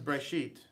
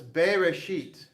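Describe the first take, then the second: First: No vowel is heard after the first consonant. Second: A full vowel is heard after the first consonant. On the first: This is how the word is usually said. "the way it's typically pronounced" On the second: This is how the word is spelled out. "if we actually look, sound this out"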